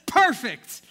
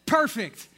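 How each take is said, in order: First: Sharp loud shout of success; triumphant rooftop shout; loud satisfied call. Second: Loud call. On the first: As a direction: belt it out, job done. Roofers reach the right spot. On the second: Roofer calls as light comes in. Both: Acted.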